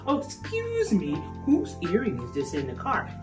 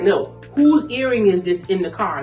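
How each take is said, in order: First: It is asked in a sweet, polite tone. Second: It is asked in a harsh, angry tone.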